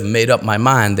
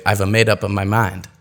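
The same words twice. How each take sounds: First: Said in the usual way. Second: "I've a made up of my mind" with extra vowels slipped in; added shadow vowels. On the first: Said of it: "Instead of". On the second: Shown as a demonstration. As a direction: say "I've a made up of my mind" with small A sounds between words. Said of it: "they might say".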